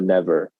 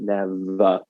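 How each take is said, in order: First: The final R sound is clearly pronounced. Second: The final R sound is left out. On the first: "there's an er on the end" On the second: "So the end of never, there is no other sound happening"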